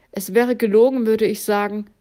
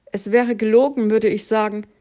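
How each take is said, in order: The two takes are said the same way.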